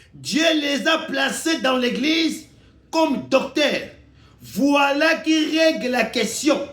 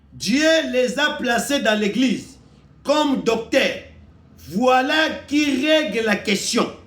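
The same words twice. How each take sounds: Both takes have the same delivery.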